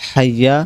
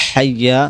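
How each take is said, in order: Both takes have the same delivery.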